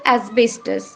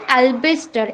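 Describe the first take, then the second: First: It starts with 'as' and ends in 'tos'. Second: It starts with 'al' and ends in 'ar'. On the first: The speaker calls it right. "আমরা কথাটা কি বলবো?" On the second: The speaker calls it wrong. "অনেকেই এই অ্যাসবেস্টসটাকে ভুল উচ্চারণ করি"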